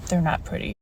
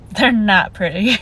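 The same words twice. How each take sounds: First: Soft, sighing they're not pretty; rueful echo. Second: Said in the usual way. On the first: Retold or imitated. Looking at her own nails, soft rueful sigh. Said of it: "every time I look at these nails, I think". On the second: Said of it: "she's like".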